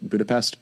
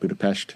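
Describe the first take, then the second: First: It is said with an English pronunciation. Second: It is said with a Hungarian pronunciation.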